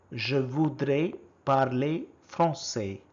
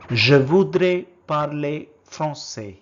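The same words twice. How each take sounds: First: Said in the usual way. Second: First take, projected clearly for the class; loud model word. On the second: Shown as a demonstration. Teacher modelling a French word for learners, loud and clear. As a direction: call out the French word loudly. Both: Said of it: "how do you say".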